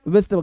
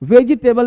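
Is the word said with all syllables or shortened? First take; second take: shortened; all syllables. First: It is said short and quick, syllables squeezed. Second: All syllables are said fully and slowly. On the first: The speaker calls it right. "Short बोलना है" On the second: The speaker calls it wrong. "वेजिटेबल नहीं बोलना है"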